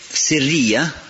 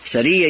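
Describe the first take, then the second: First: The first vowel is an 'i' sound. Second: The first vowel is an 'a' sound. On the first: The insight is hidden and tied to the heart. "тогда сир, то есть связано с сердцем" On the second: The insight is noble and elevated. "сиррия если через фатху"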